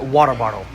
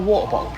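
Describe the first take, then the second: First: It is said in an American accent. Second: It is said in a British accent. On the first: The listener understands the request. "then I switch into an American accent" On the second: The listener does not understand the request. "my British accent always confuses people"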